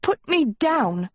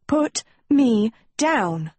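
First: High, drawn-out indignant demand; flustered high-pitched protest; sputtered protest. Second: PUT, ME, DOWN each set apart by pauses; slow, higher, word-by-word order on "Put me down"; insistent demand. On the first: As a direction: sputter it out slowly in a raised pitch. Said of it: "she sputtered". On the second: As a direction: punch out "Put... me... down" separately. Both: A narrator's reading.

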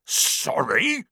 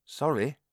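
First: High, rising bark of disbelief; giant's incredulous outburst, pitched up; indignant bark. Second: Put-on higher boy's voice, apologetic; hasty little apology from a boy; quick apology. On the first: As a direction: bark it back as an outraged question. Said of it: "barked Hagrid". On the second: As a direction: blurt a meek apology in a raised voice. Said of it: "Harry said quickly". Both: A narrator's reading.

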